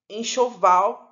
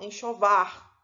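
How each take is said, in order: First: The word ends with an l sound. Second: The word ends with an r sound. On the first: This is the standard form. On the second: This belongs to other dialects.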